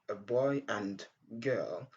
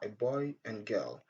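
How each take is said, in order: First: The d in 'and' is clearly pronounced. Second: The d in 'and' is dropped. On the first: The speaker calls it wrong. "Au lieu de dire a boy and girl" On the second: The speaker calls it right. "on dit tout simplement a boy and girl"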